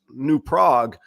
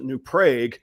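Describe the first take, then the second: First: The name is read as it is written. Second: The name is said the local way. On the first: This is what the highway sign says. "it says New Prague" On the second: This is how the townspeople say it. "they actually pronounce it New Prague"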